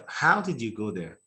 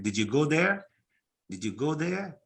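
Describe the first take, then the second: First: "How" stressed, "there" falling at the end; falling question tune. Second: "there" lifted with a rise at the end; rising question tune. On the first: Teacher modelling a wh-question fall. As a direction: let "How did you go there" fall away at the end. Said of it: "if it's a W H question". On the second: Teacher modelling a yes-no question rise. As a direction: end "Did you go there" on an upward rise. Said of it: "if it's a yes, no question". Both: Shown as a demonstration.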